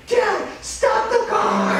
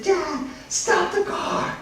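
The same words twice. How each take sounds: First: Put-on high, loud drawn-out child's yell; squealed kid shout, slow and very high; insistent little boy. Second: Put-on high, drawn-out child's squeal; very high, slow kid voice; excited little boy. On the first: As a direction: holler it as an insistent small son. Small son insists more loudly. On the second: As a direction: pipe up as a thrilled small son. Excited small son calls out.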